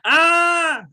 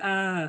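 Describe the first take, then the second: First: It is a strong, loud scream. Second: It is a weak, quiet scream.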